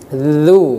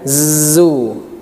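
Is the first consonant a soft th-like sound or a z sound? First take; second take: th sound; z sound. First: The consonant is a soft th-like sound. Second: The consonant is a buzzing z sound. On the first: The speaker calls it right. "Dzu ujung lidah dikeluarkan sedikit" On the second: The speaker calls it wrong. "bukan zu"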